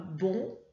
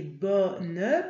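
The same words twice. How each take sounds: First: Bon with a nasal vowel, no final n sound; wrong form bon. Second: Bonne with an open o and a clear final n; right form bonne. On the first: Teacher reading the wrong masculine form bon to the puppet. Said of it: "tu as bien vu que là, c'est pas bon". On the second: Teacher modelling the feminine bonne for the pupils. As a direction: sound the n at the end of bonne. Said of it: "c'est bonne, parce qu'il y a un E à la fin". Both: Shown as a demonstration.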